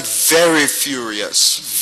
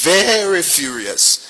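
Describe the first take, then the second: First: Said in the usual way. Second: "very furious" drawn out slowly, both words leaned on; slow stressed furious. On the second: Shown as a demonstration. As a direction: stretch out "very furious" for weight. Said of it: "came back very furious".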